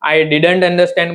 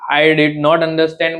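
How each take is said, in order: First: Did not is contracted into one syllable-reduced word. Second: Did not is said as two full words.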